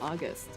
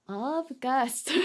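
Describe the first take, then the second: First: The name is said without a V sound. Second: The name is said with a V sound. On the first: The speaker calls it wrong. "I just assumed it was" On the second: The speaker calls it right. "The V is in there"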